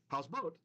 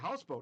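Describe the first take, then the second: First: The stress is on the last syllable. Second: The stress is on the first syllable. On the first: This is how it would sound as a Hebrew word. "if it was a Hebrew word, they'd say houseboat" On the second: This is how English speakers say it. "In English, we like the accent at the beginning"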